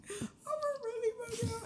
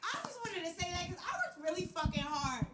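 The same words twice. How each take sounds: First: High, near-tearful emphasis; emotional, voice cracking. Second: Said in the usual way. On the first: Real, not acted. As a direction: press it with proud emotion.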